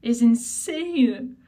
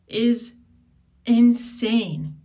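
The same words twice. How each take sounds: First: Slow, loud, each word of is insane stretched out; emphatic repeat. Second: Outraged. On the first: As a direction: drag out is insane in outrage. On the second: Outraged rant, first take. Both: Real, not acted.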